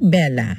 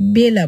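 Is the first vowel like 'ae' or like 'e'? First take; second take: ae; e. First: The first vowel is an open ae sound. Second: The first vowel is a plain e sound. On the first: This is how people actually say it. "আমরা কি বলি? বেলা" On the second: This is how the spelling suggests it is read. "বেলা বলার কথা"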